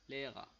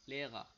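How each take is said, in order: The two takes are said the same way.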